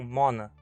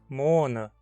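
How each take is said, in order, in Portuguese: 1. A vogal o é curta. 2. A vogal o é longa. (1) "e não mona" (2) "usamos apenas um N para ficar claro que o O é longo"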